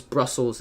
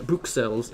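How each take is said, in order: First: Brussels as "BRUSS-ulz"; English pronunciation. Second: Bruxelles as "brook-SELL", with a "ks"; French pronunciation. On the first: Streamer explaining the Flemish or English name, English pronunciation of Brussels. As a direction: say "Brussels" with English vowels and a plain s. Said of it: "what they say in Flemish or English". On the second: Streamer explaining the French name, French pronunciation of Bruxelles. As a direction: say "Bruxelles" the French way, stress at the end. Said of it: "is what they say in French". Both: Shown as a demonstration.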